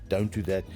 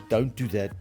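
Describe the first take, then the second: No difference in how they are said.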